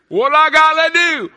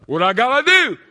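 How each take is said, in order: First: Higher and louder still on "What I gotta do?", pushing "gotta"; louder plea. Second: A loud high cry asking "What I gotta do?"; loud plea. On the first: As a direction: cry it out harder the second time. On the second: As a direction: call out the question to heaven. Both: Acted. Repeated plea, building.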